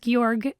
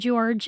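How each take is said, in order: First: The name is said like German Georg. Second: The name is said like English George. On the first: This is the name's proper pronunciation. The speaker calls it right. "It is Georg" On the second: This is how many people commonly say it. The speaker calls it wrong. "not George, as a lot of people call it"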